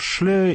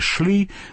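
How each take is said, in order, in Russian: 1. Имя заканчивается на гласный 'eh'. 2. Имя заканчивается на гласный 'ee'. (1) "как говорить по-немецки" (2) "или по-английски"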